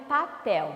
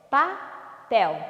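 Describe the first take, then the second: First: Said in the usual way. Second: PAPEL split into pa, pel with a clear pause; syllable by syllable. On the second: Shown as a demonstration. Teacher has pupils count syllables, "Papel" split pa-pel. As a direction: say "Papel" in two separate beats. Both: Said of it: "Quantas sílabas?".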